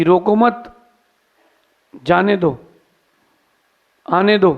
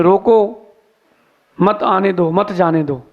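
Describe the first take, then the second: First: रोको मत said as one phrase, then a break before जाने दो; group मत with रोको, pausing long between the commands; pause after मत. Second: रोको set apart, then मत joined onto आने दो; pause after रोको. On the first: King sending his order to let boats pass, pause after मत. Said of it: "फरमान भेजा". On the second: Clever man rewording the king's order on his board, pause after रोको. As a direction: break after रोको, grouping मत with each following command. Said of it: "उसने लिख दिया board में". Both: Retold or imitated.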